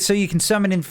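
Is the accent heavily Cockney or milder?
heavily Cockney. It is spoken in a heavy Cockney accent.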